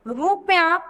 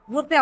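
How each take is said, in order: First: रुपया said as "ru-pi-ya", with an extra i between p and y; misspelt form read out. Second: रुपया said as "rup-ya", two syllables with no vowel after p; correct form. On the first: Teacher reads the wrong spelling रुपया aloud as ru-pi-ya. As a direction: read रुपया slowly in three syllables, ru-pi-ya. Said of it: "जबकि रुपया नहीं होता". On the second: Teacher gives the correct रुपया to pupils as rup-ya. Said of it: "ठीक है, यानी बड़े ओ की मात्रा इसमें नहीं होती". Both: Shown as a demonstration.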